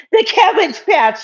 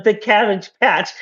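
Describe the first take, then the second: First: Much higher, sung-out call; playful high singsong repeat; high sing-song. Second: Said in the usual way. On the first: Acted. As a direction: sing the name out up high and a bit louder. Repeats name, second time sung out.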